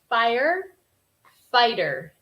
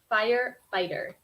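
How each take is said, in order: First: The word is split with a pause between parts. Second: The word is said smoothly without any pause.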